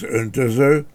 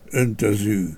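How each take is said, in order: First: The final vowel is a plain mid vowel. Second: The final vowel is closer and higher. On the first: "maga az öntöző" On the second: "a zártabb magánhangzójú öntözű"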